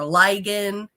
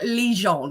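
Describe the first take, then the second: First: It has a hard g sound, like Ligon. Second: It has a soft zh sound, like Lejeune. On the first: The speaker calls it wrong. "people always call me like" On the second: The speaker calls it right. "my last name is actually pronounced"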